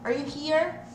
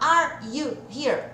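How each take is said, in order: First: Are you is squeezed into one er sound. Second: Are you is said fully, as separate words. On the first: "vai ficar só o er" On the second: "ao invés de eu falar are you here?"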